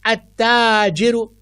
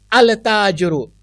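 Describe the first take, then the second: First: "अत्ताजिरु" with a doubled t and no L; lam assimilated. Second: "अल ताजिरु" with the lam wrongly sounded; wrong clear al. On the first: Teacher showing a sun letter, lam silent. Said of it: "मैंने अल ताजिर नहीं पढ़ा". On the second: Teacher showing the wrong reading for contrast. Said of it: "मैंने ये नहीं पढ़ा". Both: Shown as a demonstration.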